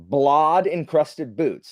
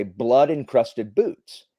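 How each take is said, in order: First: "Blod" said with an ah vowel, drawn out slowly; slow, deliberate "Blod", as in the typo; misspelled blood. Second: Said in the usual way. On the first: Shown as a demonstration. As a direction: read "Blod" as written, rhyming with nod. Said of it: "it had been typed in wrong". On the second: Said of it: "it was supposed to say".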